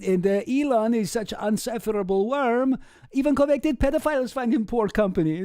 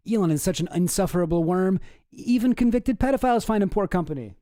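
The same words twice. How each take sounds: First: Mock Russian accent. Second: Said in the usual way. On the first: Shown as a demonstration. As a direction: read it like a Russian joke told in a Russian accent. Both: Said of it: "it's like a Russian joke".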